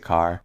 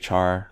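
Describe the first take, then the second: First: The word begins with a 'k' sound. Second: The word begins with a 'ch' sound. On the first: "I say car, because it's short for character" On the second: "Some people say char"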